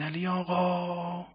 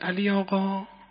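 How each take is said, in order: First: The later syllable is stretched out very long. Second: The second syllable is stretched out. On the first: The person called is very far away. "هجای بعدی کشیده شد" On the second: The person called is about twenty meters away. "اون هجای دوم چی شد؟ کشیده شد"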